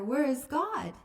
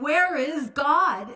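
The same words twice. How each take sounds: First: It is said a little louder. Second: It is boomed out very loudly.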